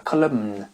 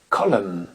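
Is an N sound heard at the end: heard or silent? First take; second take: heard; silent. First: An N sound is heard at the end. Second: No N sound is heard at the end. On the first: The speaker calls it wrong. "et non pas column" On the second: The speaker calls it right. "Une colonne se dit column"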